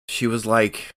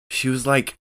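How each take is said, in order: Both takes have the same delivery.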